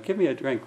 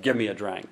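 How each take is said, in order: First: The request is said in a soft, polite tone. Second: The request is said in a curt, commanding tone. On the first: The speaker is kindly asking a favor. The speaker calls it right. "a tone of voice that would say, please" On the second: The speaker is ordering the listener around. The speaker calls it wrong. "it sounds almost bossy"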